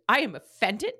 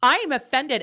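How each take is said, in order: First: Said in the usual way. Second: Mock offended. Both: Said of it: "As our resident content therapist".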